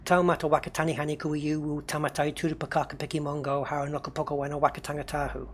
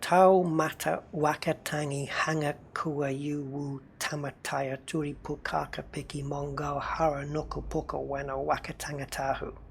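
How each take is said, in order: First: The name is said at normal fast speed. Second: The name is said more slowly.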